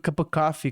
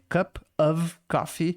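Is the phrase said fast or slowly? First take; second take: fast; slowly. First: The phrase is said quickly and run together. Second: The phrase is said slowly and fully.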